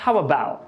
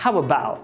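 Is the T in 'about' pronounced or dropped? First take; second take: dropped; dropped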